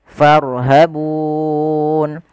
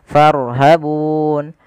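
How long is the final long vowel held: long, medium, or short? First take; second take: medium; short. First: The final long vowel is held moderately long. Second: The final long vowel is held briefly.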